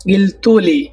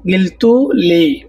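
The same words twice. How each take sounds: First: Said in the usual way. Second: গিলতুলি said slowly, syllable by syllable; slow model of গিলতুলি for learners; slow teaching demo. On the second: Shown as a demonstration. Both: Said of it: "তোমরা আমাকে বলেছ".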